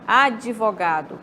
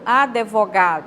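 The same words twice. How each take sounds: First: An extra i sound is heard between d and v. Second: An extra e sound is heard between d and v. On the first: "como se tivesse um I" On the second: "Como se tivesse um E"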